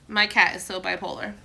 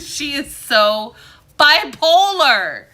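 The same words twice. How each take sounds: First: Said in the usual way. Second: Bipolar stretched slow, higher and louder; mock-dramatic slow and loud bipolar; drawn-out emphasis. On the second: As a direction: lean hard on the word bipolar, dragging it out. Exaggerates about her cat.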